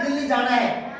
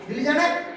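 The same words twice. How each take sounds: First: It is a statement, falling at the end. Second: It is a question, rising at the end.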